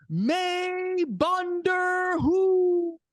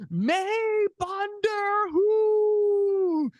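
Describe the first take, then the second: First: High, very slow, stretched-out arena call; announcer proudly shouting Punjabi to the crowd, stretched long; drawn-out announcer call. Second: High, very slow, stretched-out arena call; announcer repeating his Punjabi line, stretched long; drawn-out announcer call, again. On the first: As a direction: hold every syllable like a ring introduction. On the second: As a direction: repeat it just as long and proud. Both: Retold or imitated. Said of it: "I say it again in the microphone".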